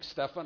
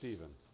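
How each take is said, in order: First: The name is said following its spelling. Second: The name is said the standard English way. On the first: The speaker calls it wrong. "transpose it in my mind to the wrong pronunciation" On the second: The speaker calls it right. "the proper English pronunciation is Stephen"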